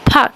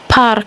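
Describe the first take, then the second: First: The R sound is silent. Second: The R sound is pronounced. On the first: This is the English pronunciation. "the R in English is silent" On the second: This is the Russian pronunciation. "in Russian, the R is pronounced"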